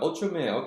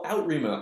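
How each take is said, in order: First: The name begins with an "ool" sound. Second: The name begins with an "out" sound. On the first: The speaker calls it right. "a video of someone pronouncing the name" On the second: The speaker calls it wrong. "I was saying out, Outreamer in my head"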